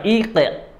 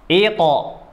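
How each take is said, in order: First: Ite with a light, thin t; the wrong thin way. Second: Ito with a thick, dark t; heavy ito. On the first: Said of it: "Bukan ite". (ite dibaca tipis) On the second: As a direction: say ito full, not thin. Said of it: "Tapi ito". (ito dibaca tebal) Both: Shown as a demonstration.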